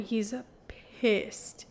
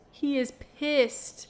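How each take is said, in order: First: Said in the usual way. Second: "pissed" drawn out and pushed up, slow and weighty; stress on pissed. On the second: Real, not acted. Retelling the angry hero to viewers, stress on "pissed". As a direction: lean hard into "pissed" to drive it home.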